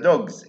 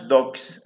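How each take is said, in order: First: The word ends with a buzzing z sound. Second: The word ends with a hissing s sound. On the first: The speaker calls it right. "قلنا دوغز" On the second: The speaker calls it wrong. "ما قلناش دوكس"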